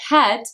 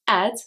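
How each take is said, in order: First: The initial h is pronounced. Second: The initial h is dropped.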